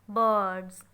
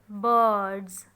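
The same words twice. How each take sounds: The two takes are said the same way.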